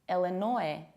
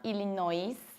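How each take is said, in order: First: The word ends without an S sound. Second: A final S sound is pronounced. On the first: The speaker calls it right. "We say Illinois" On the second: The speaker calls it wrong. "it's not Illinois, because you don't pronounce this final S"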